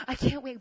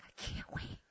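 First: Voiced, higher-pitched insistence; urgent repeat in full voice; insistent plea. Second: Whispered, voiceless desperation; hushed mock agony; strained plea. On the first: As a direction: say it aloud, pressing the point. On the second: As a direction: squeeze it out very softly. Strained plea, stomach hurting.

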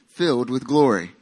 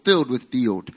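First: Said in the usual way. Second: Country accent. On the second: Real, not acted. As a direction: let the country accent slip out. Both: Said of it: "That's my country accent coming out".

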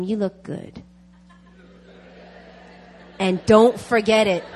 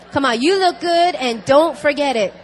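First: Said in the usual way. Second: Louder, higher, punchy rallying call; rousing encouragement. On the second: Real, not acted. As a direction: cheer the congregation on loudly. Urges congregation to repeat it heartily.

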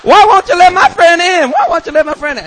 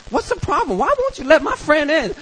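First: Put-on loud, high drunken protest; hammed-up high-pitched hollering; drunk friend yelling. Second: High-pitched tipsy complaint; mock drunken whine in a high voice; drunk female friend. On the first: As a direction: yell it like an indignant drunk. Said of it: "And she's like". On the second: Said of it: "she was all drunk and she's like".

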